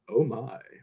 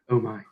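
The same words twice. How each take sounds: First: It is said in an exaggerated put-on voice. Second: It is said in a plain ordinary voice. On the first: It imitates a famous actor's catchphrase delivery. "Please tell me he said it like that" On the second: The character said it without any special flair. "He didn't. He just went"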